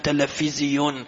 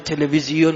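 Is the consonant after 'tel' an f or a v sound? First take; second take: f; v. First: The word is said with an f sound. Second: The word is said with a v sound. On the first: This is how people abroad pronounce it. "میگن تلفیزیون" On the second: This is the usual local pronunciation. "به تلویزیون"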